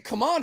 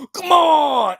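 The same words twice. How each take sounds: First: High, softer "Come on," tossed off; lightly voiced "Come on," pitched up; mock fighter. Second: High, loud shouted "Come on!"; pitched-up mock shout of "Come on!"; mock yell. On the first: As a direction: imitate her last-second call. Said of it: "She said". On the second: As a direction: yell "Come on!" like a fighter's last-second hype. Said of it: "where you yell".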